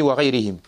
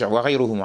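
First: وغيرهم said "wa ghayrihim", with i vowels; genitive-sounding وغيرهم, "ghayrihim"; mistaken case ending. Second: وغيرهم said "wa ghayruhum", with u vowels; corrected case ending. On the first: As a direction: end وغيرهم in "-rihim". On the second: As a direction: end وغيرهم in "-ruhum". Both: Real, not acted. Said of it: "عفواً".

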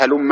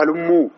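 First: هلم ending in a short "a"; unchanged form هلم. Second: هلموا with a long final "oo"; plural ending on هلموا. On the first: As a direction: say هلم as "ha-LUM-ma", no plural "oo". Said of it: "وإنما قالوا إيش؟". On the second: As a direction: stretch the end of هلموا into "halummoo". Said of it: "ما قالوا". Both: Shown as a demonstration.

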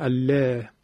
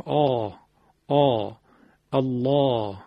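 First: "الله" with thin L and fronted "alleh" vowel; wrongly light lam. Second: Dark back "آ", then "الله" with thick L; heaviness from the throat. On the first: Teacher shows the way we don't say it, light lam. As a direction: say "الله" light, without throat thickening. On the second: Teacher shows where thickness is made, heavy lam. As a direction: open the throat on "آ" and carry it into "الله". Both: Shown as a demonstration.

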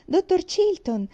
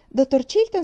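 First: Happy greeting call. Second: Louder second call to the doctor; calling out again. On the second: Girl at the window hailing the doctor, louder call. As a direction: call across to him, louder. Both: A narrator's reading. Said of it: "felice lo salutò".

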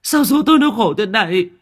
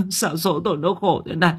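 First: Much higher, louder howl of grief; wailing. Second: Lamenting. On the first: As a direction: cry it out to the sky. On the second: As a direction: sob out the complaint at fate. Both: Acted. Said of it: "đang vật vã gào khóc".

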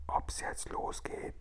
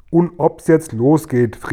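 First: Slow, barely audible whisper; tiny whisper. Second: Louder, slow, emphatic cry; exuberant call. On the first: Acted. Sophiechen asking Guri whether it starts now, whispering. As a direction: whisper it almost without sound. Keeps whispering into Guri's ear. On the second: A narrator's reading. Guri setting off out of the cave, calling out. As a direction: call it out with gusto. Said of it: "rief der Guri".

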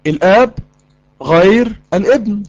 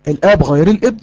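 First: الآب, pause, then غير الابن slow with weight on غير; slow, pausing emphasis on غير; slow emphatic repeat. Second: Said in the usual way. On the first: Shown as a demonstration. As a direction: drag out غير to hammer the point. Teacher repeats slowly for emphasis.

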